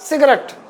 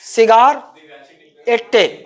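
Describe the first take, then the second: First: It is run together as 'sigret'. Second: It is split into 'cigar' and 'ette'. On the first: It is the real everyday pronunciation. "जो उच्चारण है इसका वास्तविक" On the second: It is a memory aid for the spelling. "मैं इसको कैसे याद रखा हूं, सिगार एट्टे"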